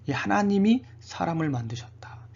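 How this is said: The word 하나님이 carries the emphasis. The focus is on the Creator who made man. "창조주이신 하나님을 강조하는 거고요"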